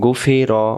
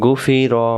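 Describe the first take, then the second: The two takes are said the same way.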